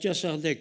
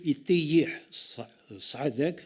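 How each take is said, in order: First: The expression is said as one short, simplified word. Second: The expression is said fully, as two longer words. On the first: "une façon de prononcer d'une manière simple" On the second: "une expression arabe qui est un peu plus compliquée"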